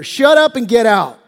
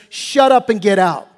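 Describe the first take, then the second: First: Louder, relished command; punchier rebuke. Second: Curt command, a bit louder; blunt rebuke. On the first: Preacher repeating Jesus's rebuke with relish, louder. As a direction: savour the rebuke. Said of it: "love me some Jesus". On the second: Preacher paraphrasing Jesus to the demon, curt. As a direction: tell it to get out. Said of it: "he says". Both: Acted.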